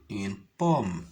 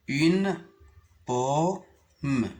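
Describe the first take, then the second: First: Said in the usual way. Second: U-ne pomme, en détachant « Une »; sépare « Une » de « pomme »; découpé en syllabes. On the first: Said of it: "pour les lire facilement". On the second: Shown as a demonstration. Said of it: "Je découpe les mots en syllabes". (syllabes détachées)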